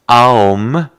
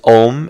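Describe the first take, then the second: First: The word begins with an open 'ah' vowel. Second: The word begins with a rounded 'oh' vowel. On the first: The speaker calls it right. "it's actually Aum, the A sound is there" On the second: The speaker calls it wrong. "some people think it's Om"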